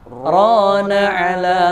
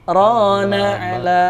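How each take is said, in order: The two takes are said the same way.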